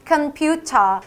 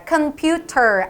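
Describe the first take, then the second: First: British "computer" with crisp T, ending in AH; British pronunciation. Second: Slow "computer" with crisp T and sounded final R; wrong British computer. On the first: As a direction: say "computer" British, final R dropped. ("computer" 영국식, 끝 알 발음 빼고) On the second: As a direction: say "computer" keeping the R, not British. ("computer" 끝 알 발음 남겨서) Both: Shown as a demonstration. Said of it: "R 발음도 날려야 되기 때문에".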